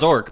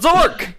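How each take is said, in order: First: The word is said plainly at normal volume. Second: The word is shouted loudly with excitement. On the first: "It's not Zork" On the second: "but Zork! ... Zork, but louder"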